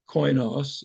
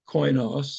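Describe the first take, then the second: First: The word is said in the Erasmian pronunciation. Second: The word is said in the Erasmian pronunciation.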